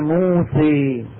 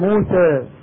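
First: The final vowel is tilted fully toward e. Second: The final vowel is tilted slightly, between a and e. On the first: This is the major tilting of some tribes. "بنو هزيل، بنو تميم ... يقولون موسى" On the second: This is the minor tilting of some tribes. "إمالة صغرى، بيقول موسى"

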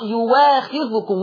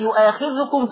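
First: The middle consonant is a w sound. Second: The middle consonant is a glottal stop.

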